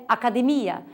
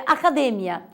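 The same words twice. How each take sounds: First: Academia said a-ca-de-MI-a; Portuguese stress. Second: Academia said a-ca-DE-mia; Spanish stress. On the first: Teacher giving the Portuguese form, academia stressed on MI. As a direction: put the beat on MI in academia. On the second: Teacher listing Spanish heterotonic words, academia stressed on DE. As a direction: put the beat on DE in academia. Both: Shown as a demonstration. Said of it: "em português é academia".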